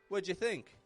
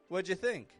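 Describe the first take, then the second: Both takes have the same delivery.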